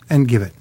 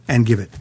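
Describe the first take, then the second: No difference in how they are said.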